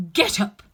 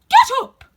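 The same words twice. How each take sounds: First: Loud, raised command, short of a full shriek; shrill, loud. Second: Piercing high shriek at full volume; shrill, loud. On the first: The Queen ordering the gardeners, in a raised shrill voice. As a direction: call out the order sharply and loudly. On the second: The Queen screeching at the gardeners, very shrill and loud. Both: A narrator's reading. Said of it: "said the Queen in a shrill, loud voice".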